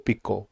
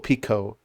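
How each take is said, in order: First: The p is released without a puff of air. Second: The p is released with a puff of air. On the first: The speaker calls it right. "It's pico pico. ... they're also um, unaspirated" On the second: The speaker calls it wrong. "So it's not pico pico pico"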